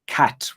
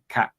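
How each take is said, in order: First: The final T sound is pronounced. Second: The final T sound is dropped. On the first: The speaker calls it right. "cat with a T at the end" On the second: The speaker calls it wrong. "you're not pronouncing the T, you're saying cat like that"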